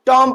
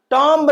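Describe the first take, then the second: First: टॉम ending on the m, no b; silent b, right way. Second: टॉम्ब with the final b clearly said, the wrong take; wrong टॉम्ब, b not silent; b sounded, wrong way. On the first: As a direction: say टॉम and stop at the m. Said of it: "टॉम पढ़ेंगे". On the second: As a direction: pronounce टॉम्ब with an audible b at the end. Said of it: "टॉम्ब नहीं पढ़ेंगे". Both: Shown as a demonstration.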